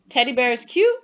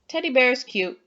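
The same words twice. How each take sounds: First: It is said as a question, rising at the end. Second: It is said calmly, with a falling, flat tune. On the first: The speaker is asking. "Am I asking?" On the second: It is a general statement. "just saying a general statement with a period"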